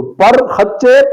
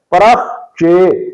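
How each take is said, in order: First: پر خچے as "par-khachche"; غلط تلفظ. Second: پرخ چے as "parakh-che"; درست تلفظ. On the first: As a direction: close the first syllable of پر خچے on r. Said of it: "پڑھنا غلط ہے". (پر خچے، رے ساکن، خے پر زبر) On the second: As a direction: break پرخ چے after the kh, short a after r. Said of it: "پڑھنا درست ہے". (پرخ چے، خے ساکن کے ساتھ) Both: Shown as a demonstration.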